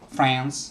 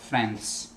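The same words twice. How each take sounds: First: The final S is voiced, like a Z. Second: The final S is voiceless, like a hiss. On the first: The speaker calls it right. "the S is always voiced" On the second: The speaker calls it wrong. "not friends"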